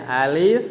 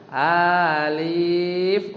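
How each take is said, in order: First: "Alif" said briefly without stretched vowels; crisp short model of "Alif"; short reading. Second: "Alif" with both vowels dragged out; stretched, held "Alif"; wrong long reading. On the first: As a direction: say "Alif" plainly, rising at the end. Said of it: "bacanya dia aja". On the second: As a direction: chant "Alif" overlong, rising. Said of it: "nggak gitu". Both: Shown as a demonstration.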